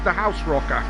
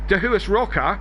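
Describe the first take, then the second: First: The name starts with the words 'the house'. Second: The name starts with the sound 'dah-huas'. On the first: This is how the name is really said. The speaker calls it right. "is how that's actually pronounced" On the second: This is the common nickname form. The speaker calls it wrong. "we call him"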